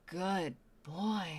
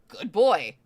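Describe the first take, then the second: First: It is said in a breathy voice. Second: It is said in a plain voice.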